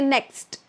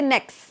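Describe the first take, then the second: First: The final T sound is clearly pronounced. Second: The final T sound is dropped. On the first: The speaker calls it right. "we need the T. We say next" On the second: The speaker calls it wrong. "We can't say next"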